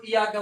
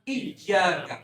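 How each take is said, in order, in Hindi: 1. y ध्वनि छोटी और एकल है। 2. y ध्वनि खिंची हुई और दोहरी है। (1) "वो सही है या गलत, तो इसका कोई माना ही नहीं रहा" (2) "मुझे प्रेस करके पढ़ो"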